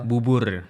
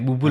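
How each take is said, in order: First: The word ends with a clear r sound. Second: The word ends with an l sound.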